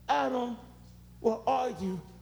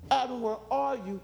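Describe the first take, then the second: First: It is said with a broken heart. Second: It is said with anger.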